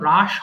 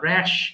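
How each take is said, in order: First: The vowel is an open 'ah' sound. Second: The vowel is a flat 'a' as in cat. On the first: The speaker calls it wrong. "এটা কিন্তু রাশ হবে না" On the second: The speaker calls it right.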